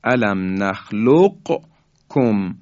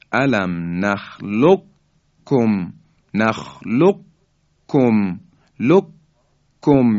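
First: Very slow نخلقکم, q released before kum; unmerged qaf. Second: Very slow نخلقکم said "nakhluk-kum", with no q; qaf merged into kaf. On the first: Teacher showing listeners the unmerged word, qaf sounded separately. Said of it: "یعنی قاف ساکن هست". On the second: Teacher demonstrating the merger, qaf swallowed into a doubled kaf. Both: Shown as a demonstration.

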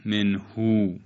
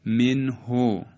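First: منهو with a long ū at the end; wrongly lengthened vowel. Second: Slow منه ending in a short o; short final vowel. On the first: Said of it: "و نه". («منهو» با اوِ کشیده در آخر) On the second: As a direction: end منه on a brief ho. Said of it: "و نه منهو". («منه» شمرده، با ضمهٔ کوتاه در آخر) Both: Shown as a demonstration.

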